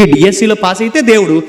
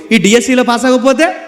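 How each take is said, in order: First: అయితే falling, settled and final; stress on pass. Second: అవ్వకపోతే rising high, left hanging; stress on failing. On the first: Preacher contrasting passing the exam, falling tone on అయితే. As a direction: land అయితే with a fall to close the thought. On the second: Preacher contrasting failing the exam, rising tone on అవ్వకపోతే. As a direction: lift అవ్వకపోతే up as an open question. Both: Shown as a demonstration. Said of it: "contrast pass / fail".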